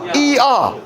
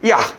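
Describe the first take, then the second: First: Two full vowels are said one after another. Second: A very short first vowel glides into the second. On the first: The speaker calls it wrong. "이아 이아 이아 이아 이아 이아 발음이 안 돼" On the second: The speaker calls it right. "존나 빠르게. 빨리 하면은 되지"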